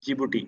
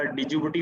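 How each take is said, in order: First: Djibouti said as "Jibuti"; silent D. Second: Djibouti with the initial D voiced; D sounded as written. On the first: Teacher showing how the country is read, D silent. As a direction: drop the D, start on the J. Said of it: "लेकिन पढ़ा जाता है जिबूटी". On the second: Teacher showing learners the spelling, D sounded out. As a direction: say the silent D before "jibuti". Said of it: "लिखा डिजिबूटी होता है". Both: Shown as a demonstration.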